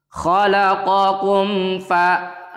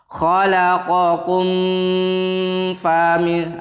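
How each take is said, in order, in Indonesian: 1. Mim jelas dan langsung lanjut. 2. Mim ditahan dengan dengung. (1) "langsung antara mim dan fa-nya itu jelas" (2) "kalian tidak boleh membacanya seperti ini ... itu salah. Mimnya nggak boleh berdengung"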